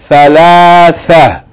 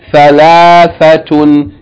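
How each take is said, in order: First: The word ends short without the -tun ending. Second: The word ends with a full -tun ending. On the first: The reader pauses on this word. "If we stop on this word, how do we pronounce it?" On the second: The word is read in connected speech.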